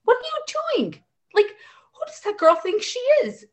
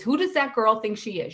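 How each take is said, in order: First: High, disbelieving what-are-you-doing; shrill-free but sky-high disbelief, imitated; mock indignant mom, pitched way up; incredulous outrage. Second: Said in the usual way. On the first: Mom voicing her outraged thoughts.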